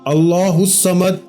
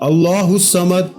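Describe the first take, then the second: First: Each word is said slowly and separately. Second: The same.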